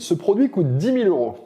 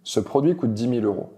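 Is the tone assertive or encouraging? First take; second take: encouraging; assertive. First: It sounds light, friendly and encouraging. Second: It sounds direct, firm and assured. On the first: It signals openness to discussion and collaboration. The speaker calls it right. "mon attitude paraît un peu plus légère et encourageante" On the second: It signals dominance over the other person. The speaker calls it wrong. "c'est une voix directe et assurée"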